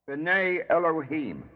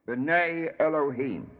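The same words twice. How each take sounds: Both takes have the same delivery.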